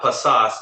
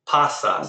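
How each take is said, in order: First: The stress is on the last syllable. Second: The stress is on the first syllable. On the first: The speaker calls it wrong. "It's not pasas" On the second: The speaker calls it right. "Stress goes on the second to last syllable"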